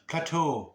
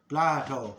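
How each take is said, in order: First: The name has the local Greek-style pronunciation. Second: The name has the usual English pronunciation. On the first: The speaker calls it right. "Plateau is what I should call him, not Plato" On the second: The speaker calls it wrong. "I was saying that Plato"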